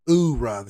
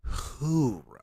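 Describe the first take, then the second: First: The word starts with a vowel, no H. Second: The word starts with a clear H sound. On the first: This is how Marines say it. "Marines say oorah. See, they take the H off of it" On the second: This is how the Navy says it. "we enunciate in the Navy. So we say who, who, hoorah"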